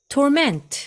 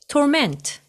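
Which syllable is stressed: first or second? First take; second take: second; second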